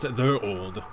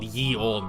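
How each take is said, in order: First: The first word begins with a th sound. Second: The first word begins with a y sound. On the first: "It's supposed to be the" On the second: "I always just read it out loud, ye old, because it sounds silly"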